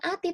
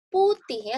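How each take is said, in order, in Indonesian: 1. Kata ini diawali tanpa bunyi "p". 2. Kata ini diawali dengan bunyi "p" yang jelas. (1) "bukan ati" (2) "tapi putih"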